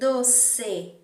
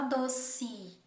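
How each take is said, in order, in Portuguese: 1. A vogal final soa como e. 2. A vogal final soa como i. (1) "a gente lê exatamente assim" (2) "a gente fala doce, com o som do i"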